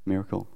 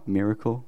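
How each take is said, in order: First: "Miracle." said /mɪɹəkəl/, falling and soft; settled pronunciation. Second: "Miracle?" said /mɪɹəkəl/ with a rising, asking tune; questioning pronunciation. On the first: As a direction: state "Miracle." quietly as the final try. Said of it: "They say I say it wrong". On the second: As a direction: try "Miracle?" as a question, checking the sound. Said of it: "Am I saying that right?". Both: Shown as a demonstration.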